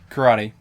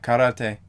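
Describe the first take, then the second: First: It is said with an English pronunciation. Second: It is said with a Japanese-style pronunciation.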